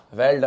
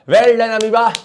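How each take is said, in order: First: Said in the usual way. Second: High, loud playful shout of praise; loud mock cheer. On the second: Teacher applauds the single-celled amoeba, loud mock cheer. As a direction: call out hearty congratulations, much higher and louder.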